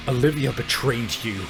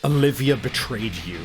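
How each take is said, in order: Both takes have the same delivery.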